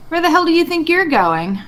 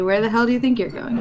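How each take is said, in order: First: High, loud threatening challenge; in-character shout. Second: Level the line at him coolly; calmer in-character threat. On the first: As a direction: bark it at him, gun raised. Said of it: "I think Gogo would, uh, just say". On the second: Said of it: "I hold up my shotgun and say". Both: Acted.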